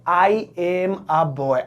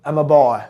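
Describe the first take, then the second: First: "I am" is said as two full words. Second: "I am" is shortened to one syllable. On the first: "पहले आई एम a boy" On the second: "अब एम a boy"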